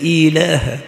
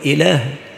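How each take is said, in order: First: The first vowel is fully and clearly voiced. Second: The first vowel is cut short and weak. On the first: The speaker calls it right. "ليس إله" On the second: The speaker calls it wrong. "فلا يشبع الكسر في الهمزة وإنما يقول إله"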